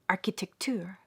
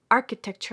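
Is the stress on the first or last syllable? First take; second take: last syllable; first syllable. First: The stress is on the last syllable. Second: The stress is on the first syllable. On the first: This is how it would sound accented the Persian way. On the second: This is the usual English way of saying it.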